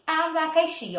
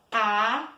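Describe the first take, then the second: First: Said in the usual way. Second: "Abacaxi" with long gaps, A, BA, CA, XI; syllable by syllable. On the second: Shown as a demonstration. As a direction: say "Abacaxi" one syllable at a time. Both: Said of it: "É polissílabas que eu tenho".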